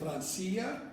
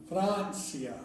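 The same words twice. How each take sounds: First: The stress falls on the i, the second syllable. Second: The stress falls on Fran, the first syllable. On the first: The speaker calls it wrong. "You're saying Francia. It would only be Francia if the I had an accent mark" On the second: The speaker calls it right. "Since it doesn't have an accent mark, then the I A goes together"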